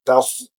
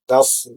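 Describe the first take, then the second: First: The lips are pushed forward on the s. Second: The lips stay unrounded on the s. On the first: The speaker calls it wrong. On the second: The speaker calls it right. "jangan dibaca dalam keadaan memonyongkan bibir"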